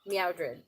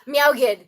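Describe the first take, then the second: First: The name is said with an R sound. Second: The name is said with a hard G, no R. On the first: The speaker calls it wrong. "you put the R in there" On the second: The speaker calls it right. "Meow G is pronounced like good"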